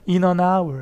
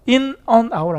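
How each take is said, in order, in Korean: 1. 묵음 h 때문에 단어들이 붙어서 발음돼요. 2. 각 단어를 연음 없이 따로 발음해요. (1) "그래서 발음이 이것도 붙어요. ... 이렇게 씁니다" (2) "아니라"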